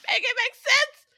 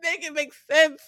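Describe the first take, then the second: First: Squealed plea. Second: Exasperated plea. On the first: Host squealing the plea to her friends, exasperated. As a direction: Make it make sense squeaked much higher. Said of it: "repeated, much higher". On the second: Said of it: "repeated exasperated plea". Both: Real, not acted.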